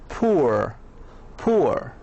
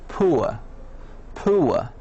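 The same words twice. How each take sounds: Both takes have the same delivery.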